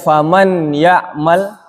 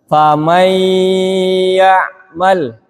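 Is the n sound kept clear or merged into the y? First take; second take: clear; merged. First: The n is pronounced clearly before the y. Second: The n is merged into a nasalized y. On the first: The speaker calls it wrong. "Tidak dibaca faman ya'mal" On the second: The speaker calls it right. "tapi dibaca famay ya'mal"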